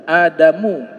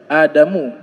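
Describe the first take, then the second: The two takes are said the same way.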